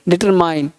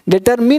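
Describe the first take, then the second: First: The last syllable sounds like 'mine'. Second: The last syllable sounds like 'min'. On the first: The speaker calls it right. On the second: The speaker calls it wrong. "डिटरमिन नहीं"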